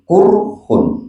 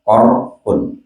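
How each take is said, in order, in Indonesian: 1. Vokal pertamanya bunyi u membulat. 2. Vokal pertamanya bunyi a terbuka. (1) "boleh dibaca domah kofnya" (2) "dengan dibaca fathah kofnya ko"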